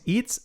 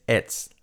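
First: "it's" with a long ee, "eets"; wrong pronunciation. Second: "it's" with i like e, "ets"; correct pronunciation. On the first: Teacher warning learners, mispronounced "it's". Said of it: "no digáis it's". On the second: Teacher correcting learners, correct "it's". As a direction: open the i of "it's" towards e. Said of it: "La I como una E". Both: Shown as a demonstration.

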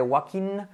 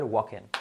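First: "walking" ending in a clear "keen". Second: "walking" ending in "ken"; low, soft "walking" as "WAH-ken". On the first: Teacher showing the ending to avoid, I in ending. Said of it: "en vez de walking". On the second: Teacher correcting the final vowel, E in ending. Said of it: "sería más una E al final". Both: Shown as a demonstration.

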